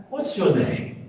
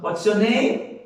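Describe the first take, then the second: First: "What's your name" falling at the end; English question tune, pitch descending onto "name"; falling intonation. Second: "What's your name" rising at the end; wrong rising intonation. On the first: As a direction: let "name" drop down. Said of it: "ela desce na". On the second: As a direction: lift "name" up like a Portuguese question. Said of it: "Nós não perguntamos". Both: Shown as a demonstration.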